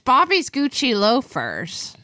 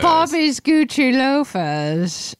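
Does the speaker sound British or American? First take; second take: American; British. First: It is said without a British accent. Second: It is said with a British-sounding accent.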